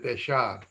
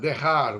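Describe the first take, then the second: First: It is pronounced the Ladino way. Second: It is pronounced the standard Spanish way.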